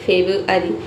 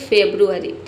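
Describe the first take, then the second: First: The r after b is not pronounced. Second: The r after b is clearly pronounced. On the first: The speaker calls it right. "ये silent रहता है but must be written" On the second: The speaker calls it wrong. "हालांकि आप ये भी बोल सकते हैं फेब्रुअरी"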